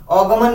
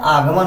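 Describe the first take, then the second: First: अगमन said with a short a at the start; wrong form. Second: आगमन said with a long aa at the start; correct form. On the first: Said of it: "अगमन नहीं होता है". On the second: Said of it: "आगमन होता है". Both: Shown as a demonstration.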